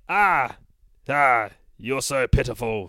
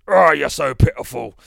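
First: It is said in the speaker's plain voice. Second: It is said in a Mighty Boosh cockney voice.

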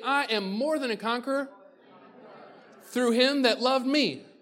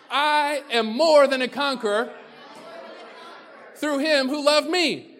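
First: It is said with low energy. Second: It is said with lively, high energy.

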